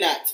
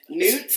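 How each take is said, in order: First: The vowel is a short 'uh' sound. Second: The vowel is a long 'oo' sound. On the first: "Nuts, I think" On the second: "I always say newts"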